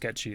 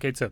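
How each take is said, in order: First: It sounds like 'ketchy', with no 'th' sound. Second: It sounds like 'Kate Sith', ending in 'th'. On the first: This follows the folklore pronunciation. "it's meant to be pronounced Ketchi" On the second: This follows the spelling. "I've always just called it Kate Sith, because that's how it's spelled"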